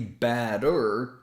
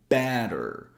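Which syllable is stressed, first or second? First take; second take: second; first. First: The stress is on the second syllable. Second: The stress is on the first syllable. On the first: The speaker calls it wrong. "We don't say batter" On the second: The speaker calls it right. "the first syllable is emphasized"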